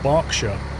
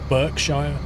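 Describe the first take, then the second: First: It is said in its usual spoken form. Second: It is said the way it is spelled. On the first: "it's pronounced Berkshire" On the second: "but it's spelt Berkshire"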